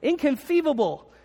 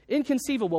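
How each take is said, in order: First: The word is said with a lisp. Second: The word is said with clear, ordinary sounds. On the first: "he's got a little bit of a lisp. And so it comes out like this" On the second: "But he doesn't say it like that"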